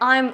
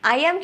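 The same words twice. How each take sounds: First: The words are merged into one short syllable. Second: The word 'am' is said as a separate syllable. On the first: "ছোট করে আই এম উচ্চারণ করে" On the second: "আই এম কেও ছোট করে"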